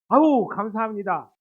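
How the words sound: The thanks sounds warm and truly sincere.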